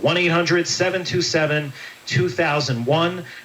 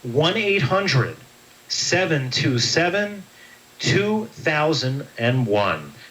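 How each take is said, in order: First: It is said at a normal pace. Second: It is said slowly.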